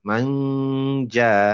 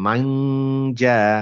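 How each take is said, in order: No difference in how they are said.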